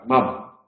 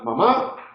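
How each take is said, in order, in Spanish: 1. La tónica está en la primera sílaba. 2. La tónica está en la última sílaba. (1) "o como grave"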